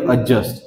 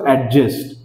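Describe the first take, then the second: First: The d sound is silent. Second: The d sound is clearly pronounced. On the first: The speaker calls it right. "हा डी जो आहे हा silent असतो" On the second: The speaker calls it wrong. "आपण म्हणत असतो ऍडजस्ट"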